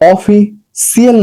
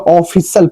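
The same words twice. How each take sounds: First: An extra 'ee' vowel comes before the last syllable. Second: The last syllable is said 'shal' with no extra vowel. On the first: The speaker calls it wrong. "इसको ऑफिशियल नहीं पढ़ा जाएगा" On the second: The speaker calls it right. "ऑफिशियल पढ़ा जाएगा"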